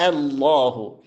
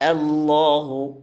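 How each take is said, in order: The two takes are said the same way.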